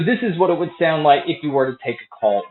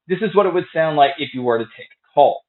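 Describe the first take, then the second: First: The voice is heard over background crowd noise. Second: The voice is heard without background crowd noise. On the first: "here is a mic test with a crowd noise being played" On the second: "here is a mic test using the Wear Buds"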